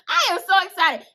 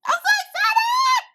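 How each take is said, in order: First: Said in the usual way. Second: High, slow, drawn-out squeal of joy; real squealing delight; excited squeal. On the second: Real, not acted. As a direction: shriek it out, can't contain the thrill.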